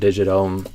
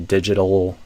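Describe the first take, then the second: First: The ending has no L and slides into M. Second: The ending has a clear dark L sound. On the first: The speaker calls it wrong. "I'm hearing you kind of go digit O and then moving to the M sound" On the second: The speaker calls it right. "we'd hear more of a digital"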